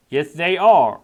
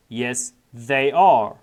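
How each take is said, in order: First: Said in the usual way. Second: Drawn out word by word; very slow model reading. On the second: Shown as a demonstration. Teacher repeating the answer for students, very slow. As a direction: stretch it for learners. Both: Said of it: "normal then slow model".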